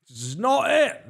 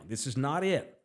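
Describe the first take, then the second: First: Exasperated host declaring the rotation done; emphatic outburst. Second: Said in the usual way. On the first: Acted. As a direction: belt "This is not it." out in frustration. Repeated verdict, third time louder.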